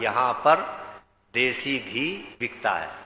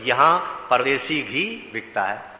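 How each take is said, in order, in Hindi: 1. 'par' और 'desi' के बीच विराम है। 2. 'par' और 'desi' एक ही शब्द की तरह जुड़कर बोले जाते हैं।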